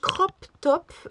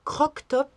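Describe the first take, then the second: First: The first word ends with a p sound. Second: The first word ends with a k sound. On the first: This is the usual way to say it. "Ça se dit crop top" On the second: It suggests a top that was bitten into. "j'aime bien dire croc top"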